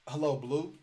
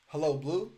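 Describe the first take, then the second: First: Hello Blue asked as a light question, rising at the end. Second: Hello, Blue with a clear rise on Blue; sound like a question. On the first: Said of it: "Just like that". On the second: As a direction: end on Blue going up, asking. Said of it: "Make it sound like a question". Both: Shown as a demonstration.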